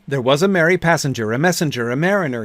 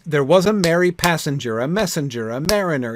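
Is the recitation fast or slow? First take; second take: fast; slow. First: It is recited quickly, all in one breath. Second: It is recited at a slower, relaxed pace. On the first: The speaker calls it right. "Let me try. One breath" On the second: The speaker calls it wrong. "I'm not really reciting this poem correctly"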